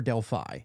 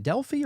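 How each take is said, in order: First: Delphi rhyming its end with "eye"; Delphi ending in "fye". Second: Delphi with a long ee at the end; Delphi ending in "fee". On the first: Host asking guest how it's said, Delphi as DEL-fye. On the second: Host asking guest how it's said, Delphi as DEL-fee. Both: Shown as a demonstration. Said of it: "is it Delphi or Delphi".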